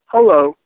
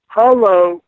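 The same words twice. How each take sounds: First: Said in the usual way. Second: Put-on high, eerie little girl's hello; mock spooky child's voice; ghostly girl's hello. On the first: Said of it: "I go". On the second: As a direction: echo her ghostly greeting. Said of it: "And she says".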